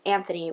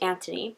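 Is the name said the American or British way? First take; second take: American; British. First: The name is pronounced the American way. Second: The name is pronounced the British way. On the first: "people pronounced his name as Anthony" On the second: "over in the U K it would be pronounced Anthony"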